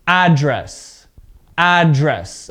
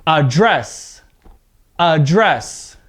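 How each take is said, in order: First: Noun-style address, full opening vowel and stressed start; stress on first syllable. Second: Verb-style Address, weak start and stressed ending; stress on second syllable. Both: Shown as a demonstration. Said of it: "see how my voice changes a bit there".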